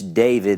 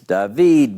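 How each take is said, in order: First: The name is pronounced the English way. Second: The name is pronounced the Hebrew way. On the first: "in English David" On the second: "in Hebrew it's David"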